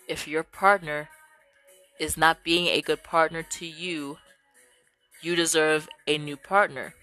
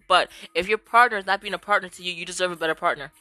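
First: It is said a bit slowly. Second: It is said at normal speed.

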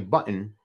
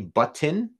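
First: The T sounds are swallowed, not clearly released. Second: The T sounds are clearly pronounced. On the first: "the way most people would say it" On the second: "so that you can hear the T's"

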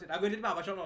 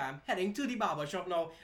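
First: It is said quickly with the words run together. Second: It is said slowly with each word enunciated.

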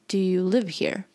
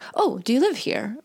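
First: It is asked in a suspicious, unfriendly tone. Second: It is asked in a friendly, polite tone.

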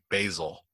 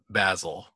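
First: The word is said the American way. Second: The word is said the British way. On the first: "I say basil" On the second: "My parents say it basil. ... they grew up learning British English"

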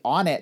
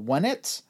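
First: The name starts with a plain vowel sound. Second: The name starts with a w sound. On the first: "I've never been clear on how to pronounce it" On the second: "I guess it's supposed to be Wunnit"

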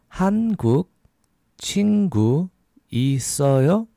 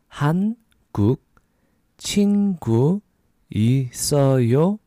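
The two takes are said the same way.

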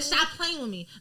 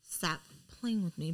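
First: It is said loudly, like yelling. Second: It is said quietly and calmly. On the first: The speaker is openly angry. "That's when people start yelling" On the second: The calm hides a dangerous anger. "Lauren is like"

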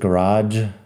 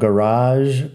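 First: The word ends in a hard sound. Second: The word ends in a soft buzzing sound. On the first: "Si dices garage, tampoco me suena mal" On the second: "Yo digo garage con j al final, que es como un sonido suave"

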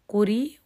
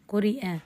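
First: The word ends with a y sound. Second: The word ends with a glottal stop. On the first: "وهي مفتوحة لا فيها لا رم ولا إشمام" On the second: "مفتوح بعد كسر"

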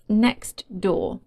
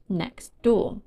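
First: The t sound is pronounced. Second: The t sound is dropped.

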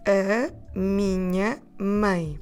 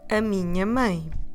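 First: It is said at a normal, unhurried pace. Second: It is said slightly more quickly.

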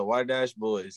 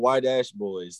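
First: The words are mumbled with little mouth opening. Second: The words are clearly and fully enunciated. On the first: The speaker calls it wrong. "you don't be opening your mouth when you talk all the time" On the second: The speaker calls it right. "like audibly illustrate this for you"

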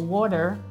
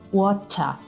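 First: The middle consonant sounds like a D. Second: The middle consonant is a clear T. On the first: "In americano diventa D in parole come ad esempio water" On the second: "in British English, rimane una T"

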